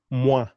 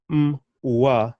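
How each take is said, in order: First: "moi" joined as one syllable, mwa. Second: M and WA split apart with a gap; split syllable. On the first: Teacher showing the right way, one joined syllable. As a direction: run the m straight into wa in "moi". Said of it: "One syllable". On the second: Teacher showing learners how not to say it, split in two. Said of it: "It's not". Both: Shown as a demonstration.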